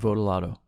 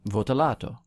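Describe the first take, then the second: First: The name is said the everyday American way. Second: The name is said the original Italian way. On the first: This is how the owner of the name says it. "I would say it that way" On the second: This is how the name was first pronounced. "that was the original way it was pronounced"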